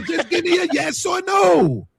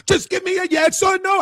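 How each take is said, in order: First: Slow, much higher, put-on shouted voice; imitating a friend's yell. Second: Mock shout. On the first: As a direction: mimic the friend's demand, drawn out. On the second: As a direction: shout it like the impatient host, accent dropped. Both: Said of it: "I can't do the Portuguese voice".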